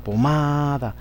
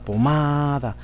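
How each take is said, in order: First: The stress is on the second syllable. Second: The stress is on the second syllable.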